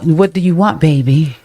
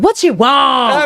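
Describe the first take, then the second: First: It sounds sweet and loving. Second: It sounds annoyed and irritated.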